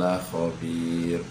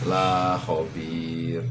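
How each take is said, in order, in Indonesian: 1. Vokal dalam la pendek. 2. Vokal dalam la panjang.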